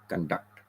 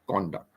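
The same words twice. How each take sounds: First: The stress is on the second syllable. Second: The stress is on the first syllable. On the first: It is a verb meaning to carry out. "the con is soft. The D U C T is more" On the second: It is a noun meaning behavior. "So we are more emphasizing on con"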